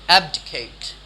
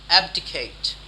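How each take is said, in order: No difference in how they are said.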